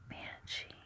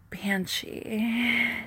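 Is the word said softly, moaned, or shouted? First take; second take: softly; shouted. First: It is spoken softly and quietly. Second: It is shouted loudly and eagerly.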